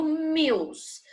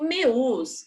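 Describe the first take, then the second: First: "meus" said slowly with a clear "ew" glide, "mews"; the right way: "meus" with the full diphthong; correct meus. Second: "meus" said as "mes", dropping the u glide; the wrong way: "meus" flattened to "mes". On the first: Teacher modelling for pupils the correct "meus", slow and clear. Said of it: "eu falo meus". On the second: Teacher showing pupils the wrong "meus", said as "mes". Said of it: "Eu não falo meus". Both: Shown as a demonstration.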